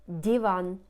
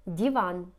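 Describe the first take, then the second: No difference in how they are said.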